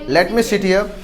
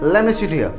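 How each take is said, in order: First: 'Let me' is said as two separate words. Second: 'Let me' is run together as 'lemme'.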